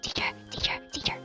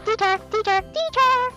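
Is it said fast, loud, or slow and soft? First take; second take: soft; loud. First: It is said slowly and softly. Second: It is said loudly.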